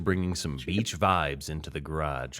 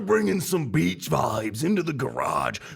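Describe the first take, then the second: First: It is read slowly in a calm, low-energy way. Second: It is read with loud, hyped, high energy. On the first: The speaker calls it wrong. "like way too slow and like N P R style" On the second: The speaker calls it right. "Crossfire level of enthusiasm"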